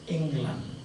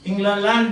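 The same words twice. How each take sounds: First: It has two syllables with one la. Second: It has three syllables with a repeated la. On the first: This is the later form after the sound was dropped. "by way of elision" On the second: This is the older form before the sound was dropped. "Why should there be two lala?"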